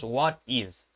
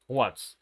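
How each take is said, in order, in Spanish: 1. Las dos palabras se dicen por separado. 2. Las dos palabras se dicen juntas, como una sola. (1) "no es necesario que digamos what is" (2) "vamos a vincular estas dos palabras"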